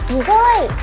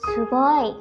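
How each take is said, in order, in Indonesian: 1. Diucapkan dengan ceria, penuh semangat. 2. Diucapkan dengan datar, tanpa semangat. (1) "dengan ceria dan semangat" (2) "jangan diucapkan seperti itu ya"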